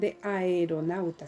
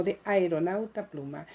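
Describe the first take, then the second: First: "de aeronauta" with a and e separate; hiatus in aeronauta. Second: "de aeronauta pluma" with a-e glided into one syllable; fuse the first vowels of "aeronauta"; synaeresis in aeronauta. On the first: Teacher showing what not to say now, "aeronauta" with a-e in two syllables. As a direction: split "aeronauta" as a-e-ro-nau-ta. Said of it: "Ya no voy a decir". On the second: Teacher showing the corrected reading, "aeronauta" said as ae-ro-nau-ta. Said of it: "sino de aeronauta pluma". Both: Shown as a demonstration.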